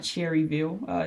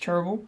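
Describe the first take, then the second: First: The first part has two full syllables. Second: The first part is squeezed into one syllable. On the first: The speaker is not from the town. The speaker calls it wrong. "and you pronounce it Cherryville, you're wrong" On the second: The speaker is from the town. The speaker calls it right. "That's really good if you can get it in one syllable"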